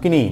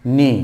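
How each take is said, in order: First: The word starts with a sounded 'k' before the 'n'. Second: The word starts with an 'n' sound and no 'k'. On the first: The speaker calls it wrong. "not kinney" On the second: The speaker calls it right. "knee, not kinney, knee"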